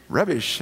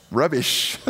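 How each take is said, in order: First: A light, laughing stab at an English accent. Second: Said in the usual way. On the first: Shown as a demonstration. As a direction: say it like a Brit, amused at yourself. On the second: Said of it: "I feel like I should say that with an English accent".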